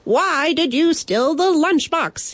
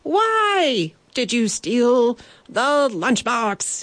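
First: High, dramatic mock shout; cracking shout. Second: Slow, high, drawn-out demand; higher-pitched repeat. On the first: Would-be brave knight confronting the bandit, high cracking shout. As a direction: challenge the thief, voice pitched way up. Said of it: "he shouted, his voice cracking". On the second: Acted. Knight repeats his demand to the bandit, slow and high-pitched. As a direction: stretch out "why" and "the" in a high voice. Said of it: "he repeated, slightly higher pitched".

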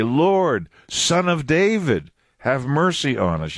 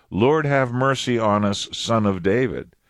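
First: "Son of David" raised high and drawn out; emphatic on SON OF DAVID. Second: Said in the usual way. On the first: Shown as a demonstration. Blind men crying out a second time, emphatic "Son of David". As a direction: cry "Lord", then lift and stretch "Son of David". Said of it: "You see the emphatic on Son of David?". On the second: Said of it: "The first time they said".

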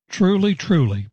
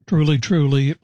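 First: "Truly, truly" lifted high with the first "Truly" leaning hard; emphatic repetition. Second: Said in the usual way. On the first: Shown as a demonstration. Preacher quoting Jesus to Nicodemus, "Truly, truly" said with strong emphasis. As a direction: press down on each "Truly". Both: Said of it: "It's very emphatic".

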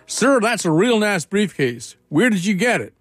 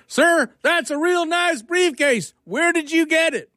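First: Put-on Georgia accent. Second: Very high, slow mock yell in a Georgia accent. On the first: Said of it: "not do justice to the Georgia accent". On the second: Puzzled Georgia guy repeats himself to the professor, high slow Georgia holler. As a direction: call it out slowly and high-pitched, Georgia-style. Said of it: "then he shrugs and says".

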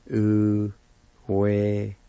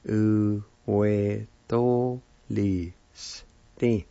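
First: "Uwetolisti" said slowly and a bit louder, syllables separated; slow Cherokee word. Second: "Uwetolisti" stretched out very slowly with a rising end; very slow Cherokee word. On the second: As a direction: draw "Uwetolisti" out as slowly as you can. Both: Shown as a demonstration. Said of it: "it's pronounced like this".

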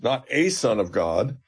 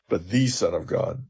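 First: Not a son of God with a lifted and held on a slow rise; stress on a. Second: But the Son of God with the weighted and falling; stress on the. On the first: Professor contrasting a son with the Son, stressing a. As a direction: press the little word a and let it rise. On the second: Professor contrasting a son with the Son, stressing the. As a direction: land firmly on the and drop the pitch. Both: Shown as a demonstration. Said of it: "his confession is perfect because he says".

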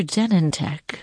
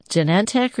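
First: Genentech as JEN-en-tek; stress on first syllable. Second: Genentech as juh-NEN-tek; stress on second syllable. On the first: Host offering the other option, Genentech said JEN-en-tek. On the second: Host asking which name is correct, Genentech said juh-NEN-tek. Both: Shown as a demonstration. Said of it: "Which one is it?".

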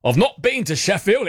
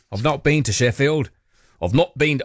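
First: Put-on broad, higher northern English accent; hammed-up Sheffield accent; British accent. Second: A light northern English lilt; faint British accent, half unawares. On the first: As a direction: lay the Yorkshire accent on thick. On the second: Pretend. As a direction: slip into a touch of British accent. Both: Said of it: "slipped into a British accent".

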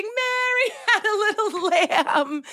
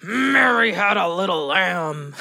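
First: High, slow rhyme through laughter; hammed-up giggly recital, pitched way up; mock laughing. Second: Slow, growled nursery rhyme; hammed-up anger, drawn out; mock angry. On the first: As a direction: laugh your way through the line. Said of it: "Try it like you're laughing". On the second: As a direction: play at being a furious kid. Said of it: "now try it like you're angry".

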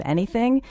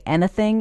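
First: Said in the usual way. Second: British-actor slip on "anything". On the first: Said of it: "instead of anything". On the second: Shown as a demonstration. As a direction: say "anything" as a UK actor slipping out of an American accent. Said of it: "actors from the U K ... will sometimes slip up".

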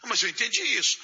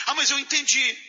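First: Said in the usual way. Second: Higher, insistent last word; stubborn retort. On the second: Retold or imitated. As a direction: dig in and insist you understood. Acted argument, stubborn final retort.

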